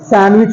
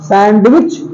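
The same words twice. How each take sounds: First: The d sound is left out of the word. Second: The d sound is pronounced in the word. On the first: The speaker calls it right. "सैंडविच होता है। तो यहां पर डी silent है" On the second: The speaker calls it wrong. "सैंडविच नहीं होता है"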